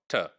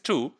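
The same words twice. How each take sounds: First: The vowel is weak and reduced. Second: The vowel is full and clear. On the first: The word is said within a sentence. "in connected speech it could be to" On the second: The word is said on its own. "in citation form it is to"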